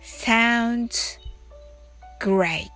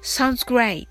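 First: It is said slowly. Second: It is said fast.

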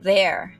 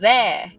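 First: It is said with a clear R sound. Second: It is said without the R, British-like.

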